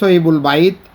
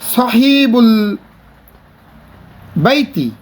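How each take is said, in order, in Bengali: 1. শেষ শব্দটি হসন্ত ব্যঞ্জনে শেষ হয়। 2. শেষ শব্দটি ই-স্বরে শেষ হয়। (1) "পড়ার সময় সহিবুল বাইত" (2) "লেখার সময় লিখবো বাইতি"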